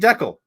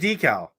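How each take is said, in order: First: It is said with the speaker's Canadian pronunciation. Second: It is said with a different, non-Canadian pronunciation. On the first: "I say decal" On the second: "instead of decal"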